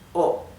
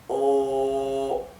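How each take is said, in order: First: The vowel is said short. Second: The vowel is drawn out long.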